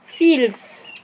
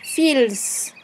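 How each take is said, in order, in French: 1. Le mot se prononce avec un son L. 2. Le mot se prononce avec un son L.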